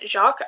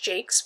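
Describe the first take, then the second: First: The surname does not sound like 'Jakes'. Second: The surname sounds like 'Jakes'. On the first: The speaker calls it wrong. "I cannot bring myself to pronounce it that way" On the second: The speaker calls it right. "I know his last name is pronounced Jakes"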